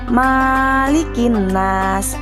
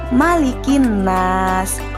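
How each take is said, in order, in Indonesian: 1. Vokal setelah m dibaca panjang. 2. Vokal setelah m dibaca pendek. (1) "huruf mimnya tidak boleh dibaca panjang. Misalkan malikin nas, itu bukan" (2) "Yang benar adalah malikin nas"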